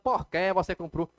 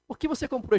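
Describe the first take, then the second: First: Slow and stretched, 'que' ends in an E sound. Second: Quick and clipped, 'que' ends in an I sound. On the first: "Por mais que você fale" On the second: "Se você falar rápido, você consegue falar com som de i"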